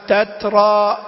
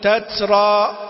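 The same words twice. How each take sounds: First: The t is released with a light puff of breath. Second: The t is released with a hissing s-like sound. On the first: The speaker calls it right. "هو فقط اندفاع للإيه؟ للنفس" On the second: The speaker calls it wrong. "يبالغ في الهمس ... هذه صارت سين"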